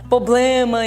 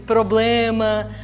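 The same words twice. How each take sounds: First: The word is said with sloppy, reduced articulation. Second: The word is said with full, clear articulation. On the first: The speaker calls it wrong. "fala ... problema" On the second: The speaker calls it right. "em vez de problema"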